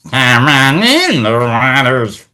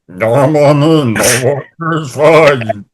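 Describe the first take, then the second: First: The voice sounds plain, with no underwater effect. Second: The voice sounds gurgly, as if underwater. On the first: The speaker calls it wrong. "instead of saying it like" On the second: The speaker calls it right. "he makes his voice sound like he's underwater"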